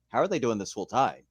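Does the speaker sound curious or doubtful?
curious. It sounds curious and eager to find out. It is worth figuring out how. "I kinda changed my thought process with it"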